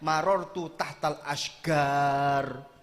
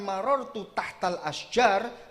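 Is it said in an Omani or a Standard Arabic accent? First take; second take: Omani; Standard Arabic. First: The jim is said like a hard g. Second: The jim is said like English j.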